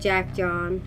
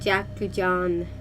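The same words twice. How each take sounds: First: It is said with an English accent. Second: It is said with a Japanese accent. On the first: The speaker calls it wrong. "Instead of" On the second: The speaker calls it right. "it just sounds better with a Japanese accent"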